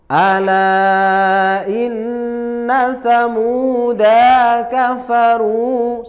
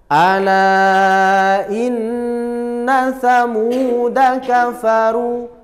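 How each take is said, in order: First: The vowel in 'da' is drawn out long. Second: The vowel in 'da' is said short. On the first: The speaker calls it wrong. "Tidak boleh dibaca ... Salah. Samuda dipanjangkan" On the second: The speaker calls it right. "cara bacanya tadi yang seperti kita baca"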